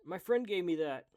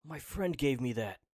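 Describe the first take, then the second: First: High, very loud acted protest; urgent shout. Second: Loud acted shout, pitched down a little; forceful shout. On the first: Retrying the character's plea, high urgent shout. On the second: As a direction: belt it out firmly, less high. Second retake, lower, then approved.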